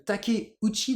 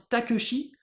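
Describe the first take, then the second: First: TAKEUCHI as ta-ké-ou-tchi; Japanese Takeuchi. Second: TAKESHI as ta-keu-chi; French-style reading. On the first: Teacher summing up the original name, TAKEUCHI as ta-ké-ou-tchi. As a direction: sound all four parts of TAKEUCHI. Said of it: "le Takeuchi devient Takeshi". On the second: Teacher showing the French distortion, TAKESHI as ta-keu-chi. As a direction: squash it into three syllables, TAKESHI. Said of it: "à la française". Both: Shown as a demonstration.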